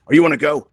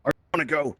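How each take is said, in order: First: Loud, higher-pitched mock greeting; imitating someone approaching. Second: Higher-pitched repeat at normal volume; imitating someone approaching. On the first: Someone coming up to you in VR, imitated loud and high. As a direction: put on a loud, high caller. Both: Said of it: "they'll be like this".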